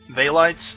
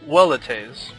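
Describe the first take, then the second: First: The word begins with a V sound. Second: The word begins with a W sound. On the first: The speaker calls it wrong. "I was pronouncing these uh, Velites" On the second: The speaker calls it right. "The uh, V E makes a well sound"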